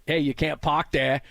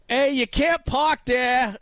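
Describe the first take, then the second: First: Said in the usual way. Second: High, slow Boston shout out a car window; Boston accent yell. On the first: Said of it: "typical Boston guy". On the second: Retold or imitated. Host retelling a viral video, Boston accent yell. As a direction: yell it like a Boston driver passing a crash. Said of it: "he yells out the window in a Boston accent".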